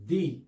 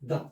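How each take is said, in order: First: The vowel is a long 'ee' sound. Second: The vowel is a short 'uh' sound. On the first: The next word starts with a vowel sound. "अगर द word है और इसका जो plus next word है वो vowel start है" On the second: The next word starts with a consonant sound. "अगर जो द है उसका नेक्स्ट वर्ड जो है वो कॉन्सोनेंट स्टार्ट है"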